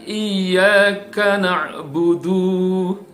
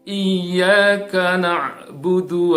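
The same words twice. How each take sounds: First: A vowel in na'budu is drawn out long. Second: The vowels in na'budu are kept short. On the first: The speaker calls it wrong. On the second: The speaker calls it right.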